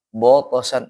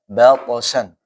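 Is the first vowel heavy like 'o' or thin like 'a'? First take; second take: heavy o; thin a. First: The first vowel is a heavy, rounded 'o'. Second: The first vowel is a thin, open 'a'. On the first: The speaker calls it wrong. "misalkan yang salah ya" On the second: The speaker calls it right.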